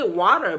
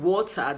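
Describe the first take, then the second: First: American "water" with a rolled R; American accent. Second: British "water" with no rolled R; non-rhotic British "water"; British accent. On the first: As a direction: slip into American for the word "water". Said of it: "using that American accent". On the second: Contrasts with American version just said. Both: Shown as a demonstration.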